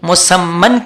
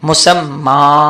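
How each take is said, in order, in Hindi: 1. शब्द का अंत -an की ध्वनि से होता है। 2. शब्द का अंत लंबे a स्वर से होता है। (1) "दो जबर है" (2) "एक जबर को ही पढ़ेंगे"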